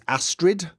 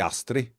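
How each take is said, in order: First: The name has an English-style pronunciation. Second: The name has a Scandinavian-style pronunciation. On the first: This is how the game says it. The speaker calls it wrong. "the leader of the uh, Dark Brotherhood is Astrid" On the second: This is how the name is really said. The speaker calls it right. "it should be Astrid"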